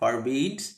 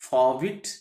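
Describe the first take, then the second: First: The r sound in the first syllable is heard. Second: The r sound in the first syllable is silent.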